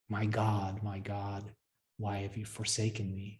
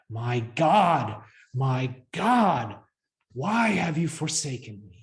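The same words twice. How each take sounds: First: It is said plainly, without strong feeling. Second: It is said with anguished, total abandon.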